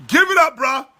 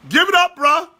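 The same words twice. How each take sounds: First: Said in the usual way. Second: Emphatic repeat. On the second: Real, not acted.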